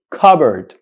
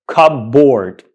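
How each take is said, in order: First: Cupboard as "KUB-erd", P silent; correct pronunciation. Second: Cupboard as two full words, "cub-board"; wrong pronunciation. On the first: Teacher summing up for learners, cupboard as "KUB-erd". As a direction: say "cupboard" with a weak "-erd" ending. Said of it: "So this word is pronounced". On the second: Teacher showing the mistake to avoid, cupboard as "cup-board". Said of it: "That is wrong". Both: Shown as a demonstration.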